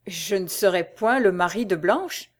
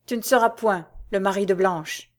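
First: Echoing the words back in disbelief; stunned, questioning echo; stupefied disbelief. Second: Said in the usual way. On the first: Acted. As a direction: repeat it as if you can't believe your ears. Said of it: "stupéfait et ne pouvant croire à ce qu'il entendait". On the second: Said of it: "répéta Albéric".

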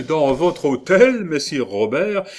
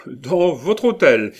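First: Laughing. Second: Slow, louder, with hôtel falling; amused. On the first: Cellini laughs at the provost's offer, amused rising question. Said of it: "dit en riant Benvenuto Cellini". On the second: Cellini teases the provost again, amused falling repeat. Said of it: "dit en riant". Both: A narrator's reading.

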